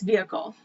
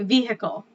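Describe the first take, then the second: First: The middle H sound is left silent. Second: The middle H sound is clearly pronounced. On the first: "we don't pronounce the H" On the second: "So I think you guys say vehicle"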